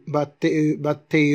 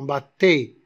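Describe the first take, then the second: First: "battait" with an extra "euh" tacked on the end; "battait" with the mute ending voiced; wrongly sounded E. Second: Said in the usual way. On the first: Shown as a demonstration. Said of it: "on n'a pas prononcé le E". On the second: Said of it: "euh, non".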